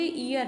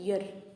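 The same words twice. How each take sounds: First: The word starts without a y sound. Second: The word starts with a y sound. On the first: The speaker calls it wrong. "इसको हम बोलते ईयर है, जो कि गलत है।" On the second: The speaker calls it right. "इसका actual pronunciation है ईयर।"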